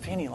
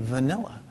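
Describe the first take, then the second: First: The word begins with an f sound. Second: The word begins with a v sound. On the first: The speaker calls it wrong. "My mom pronounced it, I'm thinking Fanny Law" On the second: The speaker calls it right. "oh, you mean vanilla?"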